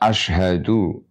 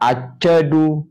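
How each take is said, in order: First: The word has a clear 'sh' sound after 'a'. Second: The word has a 'ch' sound after 'a'. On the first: The speaker calls it right. "Maka harus jelas" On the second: The speaker calls it wrong. "asyhadu dibaca acadu ... Itu pelo namanya"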